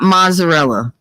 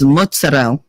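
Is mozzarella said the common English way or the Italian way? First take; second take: common English; Italian. First: Mozzarella is said the common English way. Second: Mozzarella is said the Italian way. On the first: The speaker calls it wrong. "It's not mozzarella" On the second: The speaker calls it right. "If you're going to say the whole thing, it's mozzarella"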